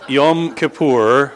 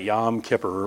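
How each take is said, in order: First: It is pronounced the Hebrew way. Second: It is pronounced the common American way. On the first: The speaker calls it right. "that's some Hebrew there" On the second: The speaker calls it wrong. "here in America, most people pronounce that Yom Kippur"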